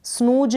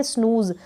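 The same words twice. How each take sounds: First: स्नूज said "snooj", ending in j; wrong j sound. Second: स्नूज said "snooz", ending in z; correct z sound. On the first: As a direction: close स्नूज on j, not z. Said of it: "स्नूज नहीं पढ़ेंगे". (स्नूज के अंत में ज की ध्वनि) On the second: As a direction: close स्नूज on a buzzing z. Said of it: "क्या पढ़ेंगे?". (स्नूज के अंत में ज़ की ध्वनि) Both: Shown as a demonstration.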